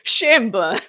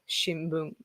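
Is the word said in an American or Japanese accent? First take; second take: American; Japanese. First: It is said with strong English-style stress. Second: It is said with flat, even Japanese pitch. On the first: "Americans would call it shimbun" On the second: "But Japanese people"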